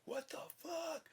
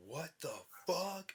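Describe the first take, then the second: First: Squeaky falsetto what the fuck, much higher; a cartoonish panicked shriek. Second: Higher, slow, stunned what the fuck; a shocked first double take; startled retelling. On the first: Full shock on looking down. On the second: Retold or imitated. First shock at discovering symptom.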